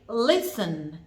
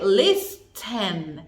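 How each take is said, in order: First: The T sound is silent. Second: The T sound is clearly pronounced. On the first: The speaker calls it right. "We only say listen" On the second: The speaker calls it wrong. "We don't say listen"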